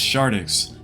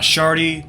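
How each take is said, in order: First: The name ends in 'dix', x sound attached. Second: The name ends in 'dee' with no x sound. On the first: The speaker calls it right. "it's Shardix. The X is not silent" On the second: The speaker calls it wrong. "Not Shardy"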